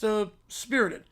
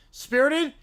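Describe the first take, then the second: First: Said in the usual way. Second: Higher, disbelieving echo of spirited; incredulous echo. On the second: Acted. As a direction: throw the word Spirited back in disbelief.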